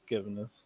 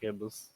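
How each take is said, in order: First: An extra 'n' syllable comes before the ending. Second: No 'n' syllable comes before the ending. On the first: The speaker calls it right. "Pretty sure it's gibbonous" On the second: The speaker calls it wrong. "not gibbous"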